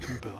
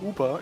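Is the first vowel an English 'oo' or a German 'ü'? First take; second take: German ü; English oo. First: The first vowel is a rounded German ü. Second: The first vowel is a plain English oo.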